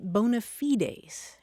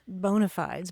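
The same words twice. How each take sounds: First: It is said with a Latin-style pronunciation. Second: It is said with an anglicized English pronunciation. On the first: "in Latin, you pronounce it" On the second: "I have always pronounced it"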